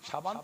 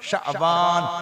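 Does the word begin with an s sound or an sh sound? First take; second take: s; sh. First: The word begins with a plain s sound. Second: The word begins with an sh sound. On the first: It names a different thing, not the month. The speaker calls it wrong. "সাবান তো মাঘে" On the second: It names the eighth Arabic month. The speaker calls it right. "ওটা হলো শাবান। শিন আইন বা আলিফ নুন।"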